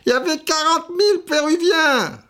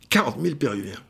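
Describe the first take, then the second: First: It is said in an imitation of another man. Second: It is said in the speaker's natural voice.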